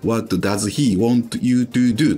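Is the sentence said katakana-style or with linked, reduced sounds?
katakana-style. Each word is said separately with Japanese-style vowels. The speaker calls it wrong. "日本人っぽい感じでいいって言われた時にですね、What does he want you to do? とかじゃない"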